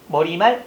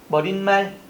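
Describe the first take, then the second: First: It is said plainly without an added n sound. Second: It is said with an added n sound before 말. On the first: The speaker calls it right. "니은 첨가나 된 소리가 일어나지 않는답니다" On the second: The speaker calls it wrong. "이런 식으로 뭐가 니은 첨가 소리를 많이 내죠"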